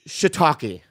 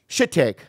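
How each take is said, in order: First: The word is said as shiitake. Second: The word is said as shit take. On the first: The speaker calls it right. "the only word I remember fucking up" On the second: The speaker calls it wrong. "And what did you say?"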